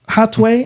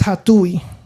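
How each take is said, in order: First: The name ends with a 'way' sound. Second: The name ends with an 'oo-ee' sound. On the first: The speaker calls it right. "I think is how you pronounce it" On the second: The speaker calls it wrong. "I've always read it as Hatui, right? And I was I was probably wrong"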